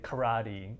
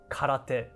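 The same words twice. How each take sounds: First: It is said with an English-style pronunciation. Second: It is said with a Japanese-style pronunciation. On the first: It is easier for listeners to understand. "I often say karate or karaoke because it's easier for uh, people to understand" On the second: It is the actual Japanese word. "actual Japanese word is karate"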